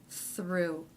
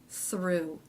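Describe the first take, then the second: The two takes are said the same way.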